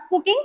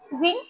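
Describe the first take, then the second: First: Cooking with a hard, unaspirated first k; the wrong cooking, no breath after the k; plain k in cooking. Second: Cooking with a soft, kh-like first k; airy k in cooking. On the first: Teacher shows what to avoid, puffless k in cooking. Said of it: "not cooking". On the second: Teacher gives the correct word, aspirated k in cooking. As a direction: puff breath through the first k of cooking. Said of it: "it's cooking". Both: Shown as a demonstration.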